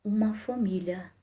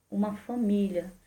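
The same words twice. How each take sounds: First: Uma leaned on, slow and soft; stress on uma. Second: Família leaned on, slow and soft; stress on família. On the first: Preacher to congregation, stressing uma, slowly. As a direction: weigh the word uma slowly. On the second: Preacher to congregation, stressing família, slowly. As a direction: weigh the word família slowly. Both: Shown as a demonstration.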